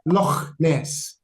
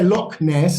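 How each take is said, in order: First: It is said in a Scottish accent. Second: It is said in an English accent. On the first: "putting on a Scottish accent" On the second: "You wouldn't say Loch Ness like we would"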